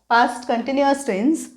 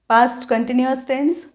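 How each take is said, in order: Both takes have the same delivery.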